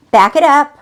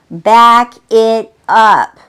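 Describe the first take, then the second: First: Said in the usual way. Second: Each word drawn out slow and louder; slow, emphatic repeat. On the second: Shown as a demonstration. Coach urging listeners to pause, slow and firm.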